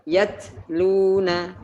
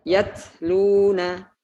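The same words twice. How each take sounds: Both takes have the same delivery.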